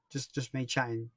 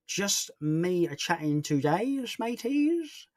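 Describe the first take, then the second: First: Said in the usual way. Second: Slow, drawn-out, leaping high on MATEYS; mock-jaunty slow singsong with a high finish; silly put-on voice. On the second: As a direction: stretch it out playfully, swooping up at the end. Playful put-on repeat of answer.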